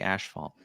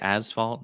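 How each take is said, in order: First: It has a sh sound before the f. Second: It has a plain s sound before the f. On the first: "some say ashfalt" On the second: "Some people say asphalt"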